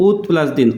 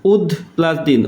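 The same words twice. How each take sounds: First: উদ said as ut, ending on t; voiceless final t. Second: উদ ending on a voiced d; voiced final d. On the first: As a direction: swap the d of উদ for a t. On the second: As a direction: say উদ with d before the plus. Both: Shown as a demonstration. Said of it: "কি দ হয় না উদ হয়".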